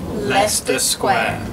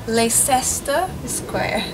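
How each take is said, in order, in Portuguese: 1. Leicester é dito na sua forma reduzida nativa. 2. Leicester é lido como está escrito. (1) "é Leicester Square" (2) "o jeito que eu pronunciava antigamente era Leicester Square"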